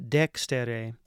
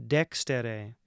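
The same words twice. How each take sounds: Both takes have the same delivery.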